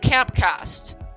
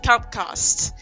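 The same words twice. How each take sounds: First: It is said in an American accent. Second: It is said in a British accent. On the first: "it sounds weird when I say it with an American accent" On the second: "I just tried using the British accent"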